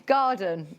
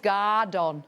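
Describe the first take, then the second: First: Said in the usual way. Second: "Gardon" with a full "don" ending; misprint pronunciation. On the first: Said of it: "supposed to be called". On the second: Shown as a demonstration. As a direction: sound out "Gardon" as misprinted, stressing both syllables. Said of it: "I think that might be a typo".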